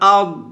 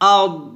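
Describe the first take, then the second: No difference in how they are said.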